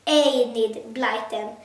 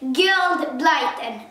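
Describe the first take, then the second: First: The first name begins with a vowel E sound. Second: The first name begins with a hard G sound. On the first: The speaker calls it right. "the author is Enid Blyton" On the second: The speaker calls it wrong. "I have said it completely wrong"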